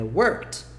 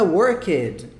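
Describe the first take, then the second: First: Worked as one syllable ending in a light t, workt; right pronunciation. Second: Worked said slowly as two syllables, wor-ked; wrong pronunciation. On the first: Teacher giving students the right way to say worked. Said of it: "A pronúncia é como se fosse assim". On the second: Teacher showing students the wrong way to say worked. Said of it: "Não é worked". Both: Shown as a demonstration.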